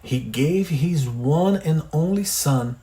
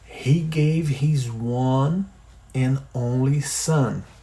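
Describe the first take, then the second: First: The sentence is read at normal speed. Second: The sentence is said slowly.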